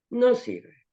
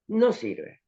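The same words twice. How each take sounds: The two takes are said the same way.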